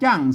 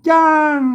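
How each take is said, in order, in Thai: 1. ออกเสียงด้วยเสียงโทธรรมดา 2. ออกเสียงด้วยเสียงโทพิเศษ (1) "จ้างเสียงโทนะครับ" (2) "จ้างเสียงโทพิเศษนะครับ"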